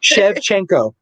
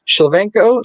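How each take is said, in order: First: Shevchenko said "shev-CHENK-oh"; corrected pronunciation. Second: Shevchenko garbled as "shil-VENK-oh"; mispronounced name. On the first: Shown as a demonstration. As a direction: say Shevchenko carefully with a clear CH. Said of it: "not remembering it and then trying". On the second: Real, not acted. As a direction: stumble Shevchenko out as "shil-VENK-oh", reading it literally. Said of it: "trying to literally read it".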